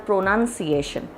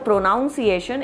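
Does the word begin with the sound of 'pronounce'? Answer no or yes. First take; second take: no; yes. First: The word does not begin like pronounce. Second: The word begins with the sound of pronounce. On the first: The speaker calls it right. "it is a pronunciation" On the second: The speaker calls it wrong. "instead of a pronunciation"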